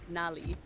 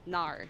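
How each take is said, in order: First: The word ends in a full 'li' syllable. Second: The word ends in an 'r' sound. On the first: "would be the standard Mandarin" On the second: "the Beijing accent would be nar"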